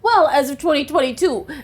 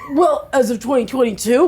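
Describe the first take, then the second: First: It is read in an ordinary voice. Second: It is read in a put-on obnoxious voice.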